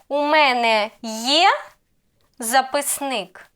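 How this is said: The pitch rises on є, question tune. It asks whether the speaker has a notebook. "I raise intonation on, on є"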